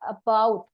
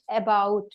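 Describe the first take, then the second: First: The first vowel is a reduced schwa sound. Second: The first vowel is a full 'a' sound. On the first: This is the standard pronunciation. The speaker calls it right. "because it's a sound" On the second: This is how many Indian speakers say it. The speaker calls it wrong. "Indian people pronounce it about, a sound"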